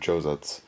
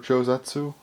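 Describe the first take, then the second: First: The final u sound is dropped. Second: The final u sound is clearly pronounced. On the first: The speaker calls it right. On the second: The speaker calls it wrong.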